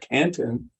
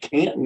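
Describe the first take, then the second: First: The T in the middle is pronounced. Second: The T in the middle is dropped. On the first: This is how outsiders say it. "instead of" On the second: This is how locals say it. "my Wisconsin accent has now re- evolved to a Canton accent because I say"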